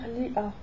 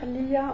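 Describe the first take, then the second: First: The vowels are separated by a glottal break. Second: The vowels are linked with a smooth y glide. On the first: The speaker calls it right. "on va dire li'a" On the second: The speaker calls it wrong. "On va pas dire liya"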